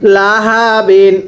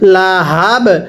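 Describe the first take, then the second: First: The word ends with an added -in sound. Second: The word ends on a bare b consonant. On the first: The reading continues without stopping. "বা দুই জের বিন" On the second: The reader stops at this word. "ওয়াকফ করলে"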